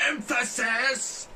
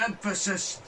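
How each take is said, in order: First: Much higher, louder, slow rising Emphasis; drawn-out emphasis. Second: Sudden high, loud cry of the word Emphasis; Josh Peck emphasis. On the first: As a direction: stretch Emphasis out high and loud, rising. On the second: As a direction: bellow Emphasis up high, falling off. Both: Retold or imitated. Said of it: "he goes".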